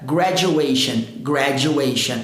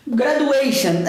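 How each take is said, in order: First: "graduation" with the "du" turned into a J; correct "graduation" with J. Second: "graduation" with "du" as doo, no J sound; passable but wrong "graduation". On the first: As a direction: say "graduation" as "gra-joo-ation". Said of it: "mas o correto". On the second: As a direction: say "graduation" with a plain D, "gra-doo-ation". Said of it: "dá pra enganar". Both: Shown as a demonstration.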